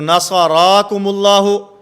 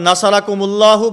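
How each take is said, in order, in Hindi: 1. पहले हिस्से में स्वर खींचे जाते हैं। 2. पहले हिस्से में स्वर छोटे हैं। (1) "इस हरकत को थोड़ा सा लंबा करेंगे" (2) "हमने ज़बर पढ़ा तो माना बिल्कुल ठीक है"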